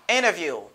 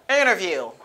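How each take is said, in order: The two takes are said the same way.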